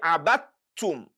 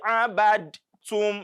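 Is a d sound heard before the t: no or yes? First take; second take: no; yes. First: No d sound; the t is doubled. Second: A d sound is heard before the t. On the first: The speaker calls it right. "as if there is no dal there at all" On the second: The speaker calls it wrong. "So don't say abadtum"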